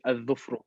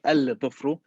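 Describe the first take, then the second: First: The 'l' merges into a doubled 'dh' sound. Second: The 'l' sound is clearly pronounced before 'dh'. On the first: The speaker calls it right. "you say al-dhufru" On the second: The speaker calls it wrong. "You don't say al-dhufru"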